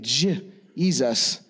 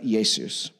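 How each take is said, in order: First: The name begins with a J sound. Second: The name begins with a Y sound. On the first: This is the modern English form of the name. "began to pronounce the curly Q version J" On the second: This is the older form of the name. "instead of E or I"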